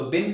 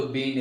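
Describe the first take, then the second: First: "बिन" with a short i; flowing-speech pronunciation. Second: "बीन" with a long ee; slow-speech pronunciation. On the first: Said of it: "आप flow में बोलें तो". ("बिन" छोटी इ से, flow में) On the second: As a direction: stretch the vowel of "बीन", as in careful speech. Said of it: "slowly बोलें तो बीन". ("बीन" लंबी ई से, slowly) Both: Shown as a demonstration.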